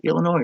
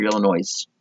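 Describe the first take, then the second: First: Said in the usual way. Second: Illinois said with a sounded S at the end; final S sounded. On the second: Shown as a demonstration. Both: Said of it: "is it Illinois or Illinois".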